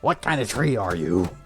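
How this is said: It is said in a salty Splatoon character voice.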